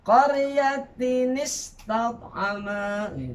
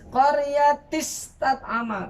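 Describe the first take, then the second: First: An 'in' sound links the two words together. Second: The words join with no 'in' sound between. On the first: The speaker calls it right. "kalau kita ngerti dalam hukum tajwidnya" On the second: The speaker calls it wrong. "Kalau orang nggak ngerti dia baca"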